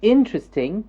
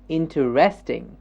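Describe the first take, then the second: First: The stress is on the first syllable. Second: The stress is on a later syllable. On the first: "then it's the first syllable that's being stressed" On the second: "the S is being stressed"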